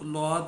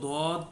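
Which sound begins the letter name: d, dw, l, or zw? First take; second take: l; d. First: It begins with an l sound. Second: It begins with a plain heavy d sound. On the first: This is how it is pronounced in Kerala. "Kerala वगैरह में इसको लौद भी कहते हैं" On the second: This is how Arabs pronounce it. "जो अरबी लोग हैं वो इसको दौद पढ़ते हैं"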